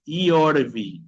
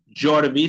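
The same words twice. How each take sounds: First: Slow "Iorvi", opening on a vowel ee. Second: "Yorvi" as "jorvi", with a consonant J. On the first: Teacher correcting the name for students, slow "Iorvi" with vowel I. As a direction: stretch "Iorvi" as "i-or-vi". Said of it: "sonido de una I normal". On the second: Teacher showing the wrong way, "Yorvi" starting like J. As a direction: harden the Y of "Yorvi" into a J. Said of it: "No es Yorvi". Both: Shown as a demonstration.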